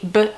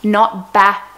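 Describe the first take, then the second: First: The consonant sound is said alone, no vowel. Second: The consonant sound has a vowel added after it. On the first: The speaker calls it right. "So it's b" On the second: The speaker calls it wrong. "they say ba instead of b"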